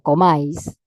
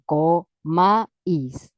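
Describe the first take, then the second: First: The two vowels are joined in one syllable. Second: The two vowels are said as separate syllables.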